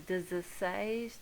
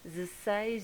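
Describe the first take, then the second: First: The opening 'de' sound is said clearly. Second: The opening 'de' sound is very soft. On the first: "The rest of them are like ten, dez, and then the number" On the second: "we usually hear dezesseis ... is very soft"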